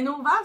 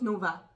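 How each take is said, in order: First: The final vowel sounds like an 'o'. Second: The final vowel sounds like an 'a'. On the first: The speaker calls it wrong. "le monde prononce pas A, il prononce O" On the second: The speaker calls it right. "ça se prononce Nova"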